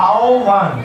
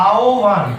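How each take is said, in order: The two takes are said the same way.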